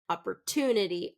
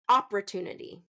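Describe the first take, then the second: First: The stress is on the third syllable. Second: The stress is on the first syllable. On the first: The speaker calls it right. "So third syllable stress" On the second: The speaker calls it wrong. "and stress that first syllable"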